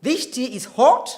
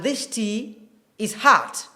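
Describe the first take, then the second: First: British "hot", short rounded O, pitched up; British RP demo with rounded "hot"; British accent. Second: American "hot" drawn open to "haht"; slow General American demo of "hot"; American accent. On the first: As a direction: say "hot" as in British RP, louder and higher. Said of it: "is typical British accent". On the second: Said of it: "typical American accent". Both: Shown as a demonstration.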